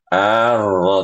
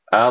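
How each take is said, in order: First: A vowel is added after the r. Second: The r ends without an added vowel. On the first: The speaker calls it wrong. "Arro tidak" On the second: The speaker calls it right. "Ar gitu"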